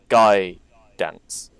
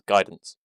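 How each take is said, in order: First: It is said as two words with a pause. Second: It is said as one word without a pause. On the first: It means a guy who dances. The speaker calls it right. "pause between the words Guy Dance" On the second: It names the ordinary spell. The speaker calls it wrong. "I forgot to pause between the words"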